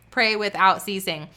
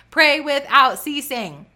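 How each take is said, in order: First: Said in the usual way. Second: Loud, high, slow proclamation; emphatic preaching. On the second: Real, not acted. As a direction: preach it out with force. Preacher emphatic repeat of refrain.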